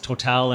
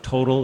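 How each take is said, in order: First: The name is said with a French pronunciation. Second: The name is said with an American pronunciation. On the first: "Total in France" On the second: "if you're an American"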